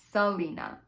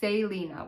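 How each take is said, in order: First: The name begins with a non-S sound. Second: The name begins with an S sound. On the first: The speaker calls it wrong. "I think I was pronouncing it Selena" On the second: The speaker calls it right. "the narrator pronounced it Selena with an S"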